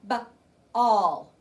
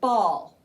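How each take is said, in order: First: The word is split into two separate sounds. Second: The word is said smoothly as one unit. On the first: "Tap it" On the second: "What's the word?"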